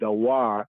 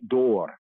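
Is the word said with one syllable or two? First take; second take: two; one. First: The word is spoken as two syllables. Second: The word is spoken as one syllable. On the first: It is read letter by letter, as for children. "if I'm teaching my little, little children, da, wa, re, right, dawar" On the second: It is read with the proper vowel points. "But then when you point it, right, door"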